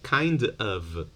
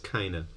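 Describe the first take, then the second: First: Both words are said fully and separately. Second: The words merge and the final v drops.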